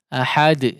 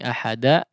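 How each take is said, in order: First: The final d bounces with no vowel after it. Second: The final d is followed by an 'a' vowel. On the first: The speaker calls it right. "betul-betul sukun" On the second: The speaker calls it wrong. "tidak seperti bunyi ahada"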